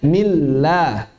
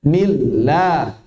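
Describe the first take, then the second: The two takes are said the same way.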